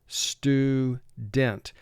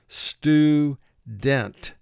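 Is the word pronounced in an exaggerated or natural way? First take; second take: exaggerated; exaggerated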